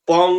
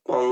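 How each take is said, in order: First: The sound is said loudly. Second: The sound is said very softly. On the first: "এবার বলুন একটু জোরে বলতে" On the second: "এবার বলুন একদম আস্তে বলতে"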